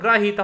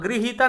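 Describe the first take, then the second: First: The first syllable has an 'a' vowel sound. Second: The first syllable has an 'i' vowel sound. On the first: The speaker calls it right. "ग्रहीता हो" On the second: The speaker calls it wrong. "गृहीता नहीं होता"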